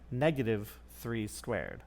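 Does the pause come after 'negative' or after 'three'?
after negative. There is a pause after 'negative', before 'three'. Only the three is squared, then made negative. "Say it with an awkward pause"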